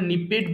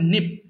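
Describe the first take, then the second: First: The ending is said as an extra syllable. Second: The ending joins the word as one syllable. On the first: The speaker calls it wrong. "অনেকে ভুল করে নিপেড বলে ফেলে" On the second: The speaker calls it right. "So এটা হবে নিপড"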